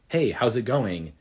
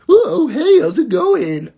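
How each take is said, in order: First: It is said in a plain, ordinary voice. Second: It is said in a strange character voice.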